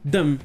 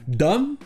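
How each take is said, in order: First: The vowel is a weak, barely pronounced sound. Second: The vowel is a full, clear 'o' sound. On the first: It is said as a suffix. The speaker calls it right. "avec le son E très peu prononcé" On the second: It is said as a word on its own. The speaker calls it wrong. "comme on le fait en français, dumb, avec le son O"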